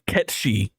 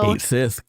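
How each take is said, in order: First: The name is said as one word, Ketchi. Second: The name is said as two words, Kate Sith. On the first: This follows the Gaelic style, as fans long believed. "the knowers all called that character Ketchi" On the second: This follows the spelling, as the makers confirmed. "it's said how it's like spelled"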